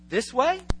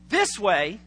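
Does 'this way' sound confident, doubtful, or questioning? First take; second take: questioning; confident. First: It is said as a clear, open question. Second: It is said firmly, with clear confidence. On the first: The person is asking which direction to take. "There's a real question mark" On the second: The person knows which way to go. "they have a sense of direction"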